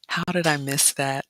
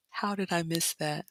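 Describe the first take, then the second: First: Said in the usual way. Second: Softer, hushed regretful question; hushed lament. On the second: Real, not acted. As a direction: murmur it to yourself in regret. Repeats lament quieter.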